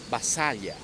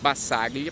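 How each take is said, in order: First: The name is said with Italian-style sounds. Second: The name is read with Portuguese-style sounds.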